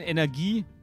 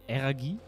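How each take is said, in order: First: The word is pronounced in the standard way. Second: The word is pronounced in a childlike, mangled way. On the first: The speaker calls it right. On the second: The speaker calls it wrong.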